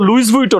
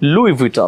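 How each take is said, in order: First: An s sound ends the first word. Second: The first word ends without an s sound. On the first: The speaker calls it wrong. "So লুইস Vuitton না" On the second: The speaker calls it right. "লুই Vuitton, right?"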